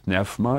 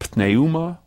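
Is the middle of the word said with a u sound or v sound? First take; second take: v sound; u sound. First: The middle of the word has a v sound. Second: The middle of the word has a u sound.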